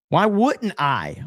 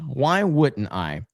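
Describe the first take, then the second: First: Higher, slow, sarcastic "Why wouldn't I?"; mock eager. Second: Deadpan repeat. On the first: Streamer sarcastically agreeing with chat, mock eager. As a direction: play along with a slow, raised "Why wouldn't I?". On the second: Pretend. Streamer repeating the joke, dry deadpan. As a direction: say "Why wouldn't I?" dry and slow.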